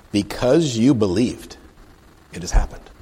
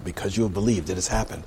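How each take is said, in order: First: Slow, weighty pronouncement; deliberate scripture reading. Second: Said in the usual way. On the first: Acted. Jesus to the Roman officer, slow scripture pronouncement. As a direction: pronounce it with a drawn-out emphasis. Reads verse aloud, then repeats it.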